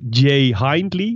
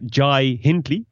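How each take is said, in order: First: The first name has an 'ay' vowel sound. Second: The first name has an 'eye' vowel sound. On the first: The speaker calls it wrong. "het is niet Jay Hindley" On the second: The speaker calls it right. "maar Jai Hindley"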